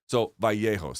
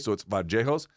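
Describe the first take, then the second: First: The double L sounds like an English Y. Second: The double L sounds like an English J. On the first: This is the most common pronunciation. "you most commonly hear it as a Y, an English Y" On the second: This is how it is said in Colombia. "they'll put a J on it, like an English J"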